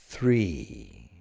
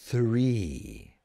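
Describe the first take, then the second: No difference in how they are said.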